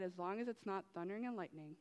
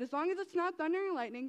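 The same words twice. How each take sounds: First: Ironic. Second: Said in the usual way. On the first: Retold or imitated. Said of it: "what happens?". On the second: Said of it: "As soon as I said".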